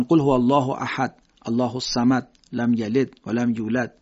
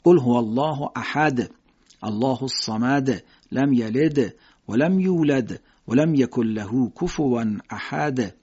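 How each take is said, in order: First: لم یلد with a faint d; weak echo. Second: Slow reading, bouncing each d in احد and یلد; with echo. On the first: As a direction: read it with the d muffled. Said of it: "خوب شنیده نمیشه". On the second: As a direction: bounce the final d clearly. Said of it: "بهتر قلقله بدید". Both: Shown as a demonstration.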